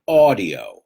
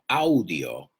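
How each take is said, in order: First: The first vowel is an 'aw' sound. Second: The first vowel is not an 'aw' sound. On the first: The speaker calls it right. "Awe, like awesome" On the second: The speaker calls it wrong. "not audio"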